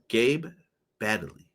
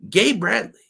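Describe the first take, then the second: First: The surname has no R after the B. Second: The surname has an R after the B.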